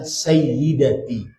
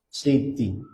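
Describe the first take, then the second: First: The word is said slowly with every syllable. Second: The word is said quickly and squeezed short.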